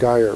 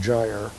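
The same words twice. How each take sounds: First: The word is said the Irish way. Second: The word is said the non-Irish way. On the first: "the Irish pronounce that gyre" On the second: "rather than gyre"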